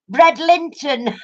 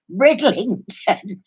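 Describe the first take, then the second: First: "Bredlinton" said as two words, bread and Linton, a touch higher; mispronounced Bredlington. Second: Slow, carefully said "Bridlington" to the TV. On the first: Mimicking the smart TV reading back "Bredlinton", mispronounced. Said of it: "it said". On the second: Husband saying "Bridlington" slowly into the smart TV, carefully. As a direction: spell out "Bridlington" slowly for a voice command. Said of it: "So he said". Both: Retold or imitated.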